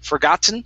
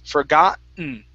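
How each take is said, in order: First: The middle T is clearly released. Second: The middle T is swallowed, not released. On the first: "Normal T is forgotten" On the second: "or the swallowed T is forgotten"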